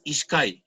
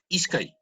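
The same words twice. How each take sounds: First: Ishkai stressed on its last syllable, ish-KAI; wrong final stress. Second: Ishkai stressed on its first syllable, ISH-kai; corrected ishkai, accent on ISH; penultimate stress. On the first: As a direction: push the accent to the end of ishkai. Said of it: "no es ishkai". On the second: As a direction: put the weight on the start of ishkai. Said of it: "en la penúltima sílaba". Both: Shown as a demonstration.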